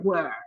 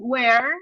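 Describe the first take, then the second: First: The word has a bigger, more open vowel. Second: The word is strongly marked, with a tighter vowel. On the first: "if you hear a British person, will be like where, like ah, a bigger open sound" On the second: "for me, it's where, where, like very marked"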